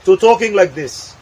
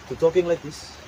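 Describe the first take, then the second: First: Said in the usual way. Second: Much softer, timid and withdrawn; shy quiet voice. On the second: Shown as a demonstration. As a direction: shrink into yourself, barely audible.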